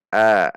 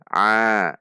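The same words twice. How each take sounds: First: The vowel is plain with no throat constriction. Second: The vowel is squeezed from the middle throat. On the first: The speaker calls it wrong. "Tidak dibaca a" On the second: The speaker calls it right. "a dari tengah tenggorokan"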